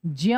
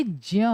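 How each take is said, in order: First: Teacher modelling ज्ञ for the class; model pronunciation. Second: ज्य said as ज plus य blended, not ज्ञ; teacher showing the correct ज्य sound; correct pronunciation. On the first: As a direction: give ज्ञ as the sound to copy. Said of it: "इसका उच्चारण कैसे होना चाहिए?". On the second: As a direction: model ज्य as the right sound. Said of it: "इसका सही उच्चारण जो होना चाहिए वो होना चाहिए". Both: Shown as a demonstration.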